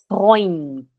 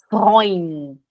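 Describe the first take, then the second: The two takes are said the same way.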